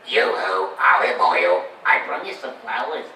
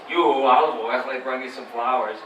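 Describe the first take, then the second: First: Lower, loud combined Popeye voice. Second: Low half of Popeye. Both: Shown as a demonstration. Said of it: "you stuck 'em together".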